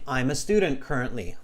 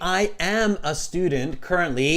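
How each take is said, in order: First: I am is contracted into one syllable. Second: I am is said as two full words.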